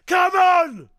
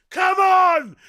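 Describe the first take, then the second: No difference in how they are said.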